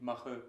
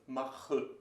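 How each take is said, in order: First: The final vowel is short and weak. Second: The final vowel is drawn out and exaggerated.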